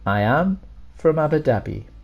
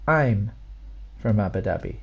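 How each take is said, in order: First: I and am are said as two full words. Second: I and am are joined into one short syllable.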